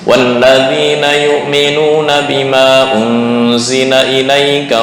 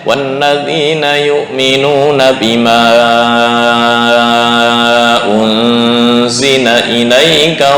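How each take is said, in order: First: The vowels before the glottal stop are held briefly. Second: The vowels before the glottal stop are stretched out. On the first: It follows the reading tradition used in Mecca. "hanya dua harokat" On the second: It follows the Syatibiyah reading tradition. "harusnya empat sampai lima"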